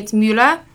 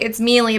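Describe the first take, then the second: First: The surname is said with a German pronunciation. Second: The surname is said with an American pronunciation. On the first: This is how the name is said in Germany. "but in Germany, it's Müller" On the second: This is how the name is said in America. "so in America, ... they're like, it's Mealy"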